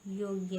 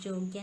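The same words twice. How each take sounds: First: योग्य starting with y, yogya; correct pronunciation. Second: योग्य starting with j, jogya; wrong pronunciation. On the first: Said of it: "होता है". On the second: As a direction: turn the y of योग्य into j. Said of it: "नहीं होता". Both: Shown as a demonstration.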